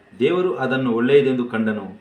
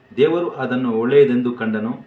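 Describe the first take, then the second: No difference in how they are said.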